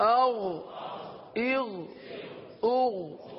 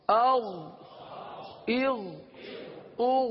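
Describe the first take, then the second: The two takes are said the same way.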